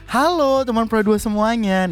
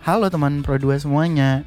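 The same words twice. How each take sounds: First: It is said with lively expression. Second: It is said flatly without expression.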